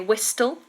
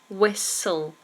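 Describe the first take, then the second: First: The t sound is pronounced in the middle. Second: The t sound is silent in the middle. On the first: The speaker calls it wrong. "so you don't say whistle" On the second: The speaker calls it right. "Whistle has a silent T"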